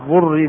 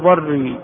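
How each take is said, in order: First: The first vowel is a rounded u sound. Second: The first vowel is an open a sound. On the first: It names the harm that is suffered. The speaker calls it wrong. "ضري بضم الضاد خطأ" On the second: It names the act of causing harm. The speaker calls it right. "الصواب بالفتح"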